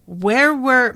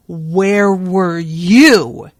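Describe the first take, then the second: First: Said in the usual way. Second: Slow, loud, drawn-out snarl. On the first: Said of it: "Mal began". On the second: A narrator's reading. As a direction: snarl it right in his face, slow and heavy. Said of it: "he snarled into Mal's face".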